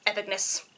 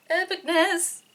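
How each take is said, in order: First: Hushed awe. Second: Epicness pitched up high with a change of voice; high gleeful Epicness; excited awe. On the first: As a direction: murmur Epicness in quiet wonder. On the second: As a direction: hit Epicness high and thrilled. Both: Real, not acted. Repeated word, two takes.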